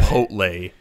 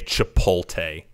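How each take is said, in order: First: The T sound comes before the L sound. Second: The L sound comes before the T sound. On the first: The speaker calls it right. "you goddamn Neanderthal" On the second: The speaker calls it wrong. "That is literally swapping where the fucking letters are"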